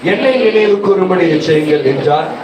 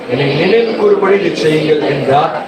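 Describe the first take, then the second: Both takes have the same delivery.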